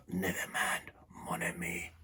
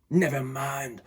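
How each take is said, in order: First: Soft, breathy whisper. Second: Said in the usual way. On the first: A narrator's reading. Hoarse trainer comforting the lion in a whisper. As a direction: whisper it tenderly, voice lost. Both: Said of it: "he whispered".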